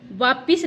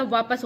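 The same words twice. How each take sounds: First: I in the second syllable of वापिस; wrong form. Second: वापस ending in -pas; no i in वापस, short a after प; correct form. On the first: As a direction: say वापिस ending in -pis. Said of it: "वापिस नहीं होता". (गलत उच्चारण, वापिस में इ) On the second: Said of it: "वापस होता है". (सही उच्चारण, वापस में अ) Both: Shown as a demonstration.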